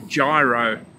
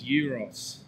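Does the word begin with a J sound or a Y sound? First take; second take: J sound; Y sound. First: The word begins with a J sound. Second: The word begins with a Y sound. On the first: The speaker calls it wrong. "is what he called them" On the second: The speaker calls it right. "the correct pronunciation is euros"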